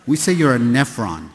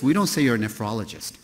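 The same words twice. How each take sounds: First: "say" stressed and louder, "nephron" landed firmly; "We say you're a nephron" punched on "say"; approved term. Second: "don't" leaned on, "nephrologist" said quickly; "we don't say" with weight on "don't"; dismissed term. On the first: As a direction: hit "say" and land "nephron" as the cool insider term. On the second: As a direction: wave off "you're a nephrologist" with a hit on "don't". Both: Shown as a demonstration.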